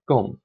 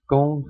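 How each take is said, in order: First: The syllable is said with the fourth tone. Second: The syllable is said with the first tone. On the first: "fourth tone" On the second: "first tone"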